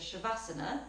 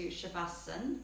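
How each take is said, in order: First: The word ends with a final vowel. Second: The word ends without a final vowel. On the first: This form was learned in another Indian region. "Western yoga teachers tend to add the A on the end" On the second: This is a central Indian regional form. "why do I refer to Shavasana"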